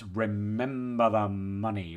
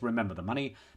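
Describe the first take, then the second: First: The M and N sounds are strongly exaggerated. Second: It is said as a plain, straight statement.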